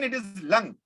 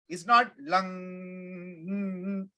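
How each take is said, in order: First: The final ng sound is short. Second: The final ng sound is held long. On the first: The speaker calls it right. "But even then, it is lung" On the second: The speaker calls it wrong. "You don't keep the ng going"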